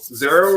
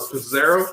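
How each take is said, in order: First: The name starts without a P sound. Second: The name starts with a spoken P sound.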